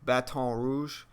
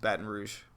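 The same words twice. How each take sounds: First: It uses the careful textbook pronunciation. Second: It uses the relaxed local pronunciation. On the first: The speaker calls it wrong. "technically it is pronounced Baton Rouge, but nobody says it like that" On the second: The speaker calls it right. "It's just Baton Rouge"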